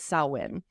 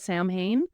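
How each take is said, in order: First: The word sounds unlike its spelling. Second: The word is sounded out letter by letter. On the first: The speaker calls it right. "but it's" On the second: The speaker calls it wrong. "A lot of people try to pronounce it"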